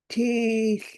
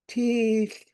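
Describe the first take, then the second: First: The word carries the marked tone on its vowel. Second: The word carries the marked tone on its vowel.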